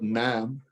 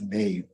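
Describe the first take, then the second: First: The vowel is a short 'a' sound. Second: The vowel is a long 'ay' sound. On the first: The speaker calls it wrong. "it is not Nam" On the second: The speaker calls it right. "it is name"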